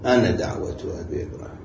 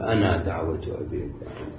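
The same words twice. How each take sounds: First: The final vowel of 'ana' is short. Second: The final vowel of 'ana' is long. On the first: This is the Hijazi usage in connected speech. "بالوصل ألف تحذف" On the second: This is the usage of the Bani Tamim dialect. "إلا على لغة بني تميم"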